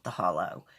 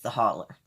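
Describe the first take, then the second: First: The word ends with an 'oh' sound. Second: The word ends with an 'er' sound. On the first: The speaker calls it wrong. "not The Hollow" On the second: The speaker calls it right. "that's how you pronounce it"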